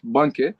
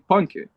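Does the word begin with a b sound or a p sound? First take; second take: b sound; p sound. First: The word begins with a b sound. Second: The word begins with a p sound. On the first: This is how most people say it today. "we use it uh, today like banke" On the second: This is how older people say it. "like old people say panke"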